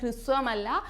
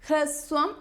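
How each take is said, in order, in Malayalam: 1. ആദ്യ അക്ഷരം 'hri' എന്ന ശബ്ദത്തിലാണ് പറയുന്നത്. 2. ആദ്യ അക്ഷരം 'hra' എന്ന ശബ്ദത്തിലാണ് പറയുന്നത്. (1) "ഹൃ അല്ല കേട്ടോ" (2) "ഹ്രസ്വം എന്നാണ് വരുന്നത്"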